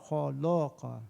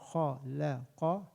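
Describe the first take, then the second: First: The middle la sounds heavy and thick. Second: The middle la sounds light and thin. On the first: The speaker calls it wrong. "the tendency is to make it thick. I'm exaggerating a little bit" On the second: The speaker calls it right. "The middle one is thin"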